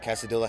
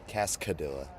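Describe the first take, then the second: First: The name is said without a second k sound. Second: The name is said with a second k sound. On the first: The speaker calls it wrong. "I'm saying that wrong" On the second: The speaker calls it right. "It's extra C in there"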